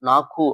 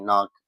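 First: It ends with an added u vowel. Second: It ends cleanly on the k consonant. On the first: The speaker calls it wrong. "இதை நாக்கு நாக்கு அப்படின்னு சொல்லக்கூடாது" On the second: The speaker calls it right. "நாக்குன்னு சொல்லாம நாக்கு, அவ்வளவுதான்"

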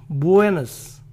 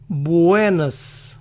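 The two takes are said the same way.

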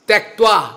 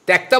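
First: A 'v' sound follows the 'kt' cluster. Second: No 'v' sound follows the 'kt' cluster. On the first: The speaker calls it right. "প্রত্যেকটা উচ্চারণ একেবারে সঠিকভাবে করতে হয়।" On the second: The speaker calls it wrong. "ত্যক্তা বললে হবে না, এটা মানে এটা মানে উল্টো।"

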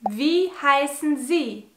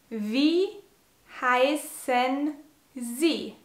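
First: It is said at normal speed. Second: It is said slowly.

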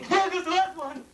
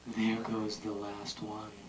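First: It is said in an eager tone. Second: It is said in a soothing tone.

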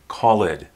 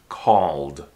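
First: The word is said with two syllables. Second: The word is said with one syllable. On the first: The speaker calls it wrong. "Don't pronounce the E. Don't say called" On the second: The speaker calls it right. "It's just one syllable"

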